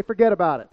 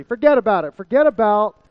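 First: Said in the usual way. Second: Louder, hammed-up Jersey "Forget about it"; New Jersey accent. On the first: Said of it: "Everybody say". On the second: Pastor riffing on the phrase to his congregation, mock New Jersey accent. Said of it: "Like you're straight from Jersey".

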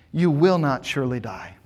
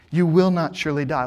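First: Said in the usual way. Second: Firm, certain denial with "will" stressed; flat-out confident assertion; absolute confidence. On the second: Shown as a demonstration. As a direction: assert it like the serpent, sure of himself. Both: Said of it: "he speaks with absolute confidence".

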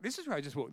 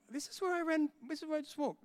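First: Said in the usual way. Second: High, rising alarm as it dawns on him; alarmed realization. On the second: Retold or imitated. Preacher retelling his panic while running through the hospital, high alarm. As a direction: voice jumping up in disbelief.

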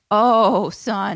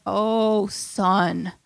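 First: Louder mock scold. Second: Said in the usual way.

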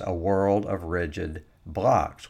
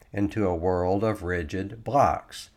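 First: "a world of rigid blocs" said slowly, leaning on "rigid blocs"; slow down and weigh each word of "rigid blocs"; emphasis on rigid blocs. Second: Said in the usual way. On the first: Shown as a demonstration. Repeating the report's phrase for his audience, slow and weighted on "rigid blocs". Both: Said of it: "Emphasis on the phrase".

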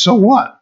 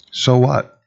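First: Emphatic so what. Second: Said in the usual way. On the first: Acted. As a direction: fling "So what?" high and hard at the doubters. Dismissing atheists' claims.

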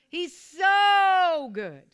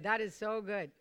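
First: Slow, stretched shout with a long so; much higher and louder, drawing out "so"; say it like you mean it. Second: Said in the usual way. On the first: Shown as a demonstration. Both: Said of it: "you gotta say it like you mean it".

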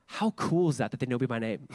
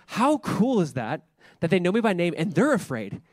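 First: Said in the usual way. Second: Delighted. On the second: Retold or imitated. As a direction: stretch it out with glee. Repeated with more delight.

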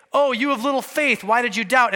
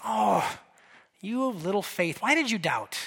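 First: Sharp, scolding tone; harsh rebuke. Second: Soft and tender, almost a sigh; a loving correction, not a scolding; gentle rebuke. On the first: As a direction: scold him like a stern judge. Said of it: "He doesn't say". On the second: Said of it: "But notice what Jesus said". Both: Retold or imitated.

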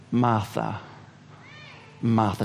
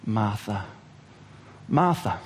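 First: Low, soft, slow name calling; gentle calling. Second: Very low, soft first name; gentle calling. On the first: Jesus gently calling Martha by name to settle her, soft and low. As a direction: call her name tenderly to calm her. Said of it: "He simply says her name twice". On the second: Jesus calling Martha twice to calm her, soft and tender. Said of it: "he says her name twice". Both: Acted.

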